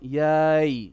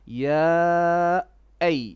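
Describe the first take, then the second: First: The two vowels are merged into one sound. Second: The two vowels are kept clearly separate. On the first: The speaker calls it wrong. "Not yay. That's not correct" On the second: The speaker calls it right. "make sure you're not merging ya as in the mad alif"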